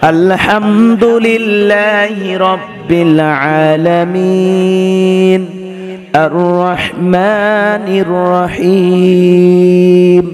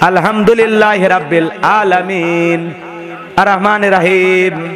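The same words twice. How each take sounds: First: It is recited beautifully with a melodious tune. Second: It is recited carelessly without melody. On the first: The speaker calls it right. "সুন্দর করে পড়তে" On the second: The speaker calls it wrong. "তেলাওয়াতের সাইজ"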